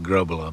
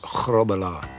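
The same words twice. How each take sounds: First: It is said with plain English sounds. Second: It has a throaty sound and rolled R's. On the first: The speaker calls it wrong. "it's easier for the English pronunciation" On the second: The speaker calls it right. "Get the, the back of the throat going and roll the R's"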